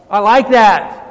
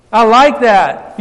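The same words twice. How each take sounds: First: Said in the usual way. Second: "I like that" said slow and louder, leaning on "like"; emphatic repeat. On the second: Real, not acted. Pastor savouring God's answer to the congregation, slow and emphatic. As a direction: stretch out "like", louder and slower.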